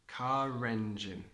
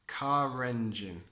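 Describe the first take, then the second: The two takes are said the same way.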